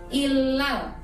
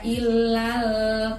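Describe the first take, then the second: First: The last vowel is short and quick. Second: The last vowel is drawn out long. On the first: The speaker calls it right. "tapi illal, temponya cepat" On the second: The speaker calls it wrong. "nggak boleh dibaca illal"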